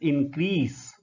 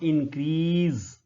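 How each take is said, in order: First: The middle consonant is a hissing s sound. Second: The middle consonant is a buzzing z sound. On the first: The speaker calls it right. "this word is increase ... it is s sound" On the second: The speaker calls it wrong. "not increase. It is not z sound"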